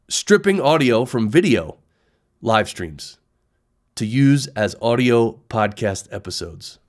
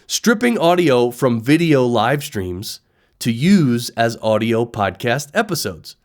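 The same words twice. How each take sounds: First: It is read in a strange, awkward way. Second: It is read in a smooth, natural way.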